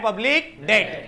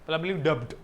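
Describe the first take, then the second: First: The b sound in debt is silent. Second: The b sound in debt is pronounced. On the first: The speaker calls it right. "बी is silent" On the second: The speaker calls it wrong. "बच्चे लोग बोलते public डेप्ट"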